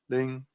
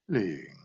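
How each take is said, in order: First: The pitch stays level across the word. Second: The pitch falls across the word. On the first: "One is flat" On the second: "One is descending"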